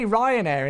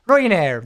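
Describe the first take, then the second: First: Said in the usual way. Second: Ryanair in a punchy Irish accent. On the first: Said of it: "I can only say Ryanair in". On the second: Shown as a demonstration. Streamer showing his one word of Irish accent, Irish accent. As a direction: say the airline name with a loud put-on Irish accent. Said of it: "Just do the Ryanair accent".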